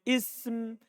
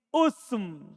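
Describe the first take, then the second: First: The word begins with an i vowel. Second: The word begins with a u vowel. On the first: "boleh antum kasro" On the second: "boleh antum dhamma"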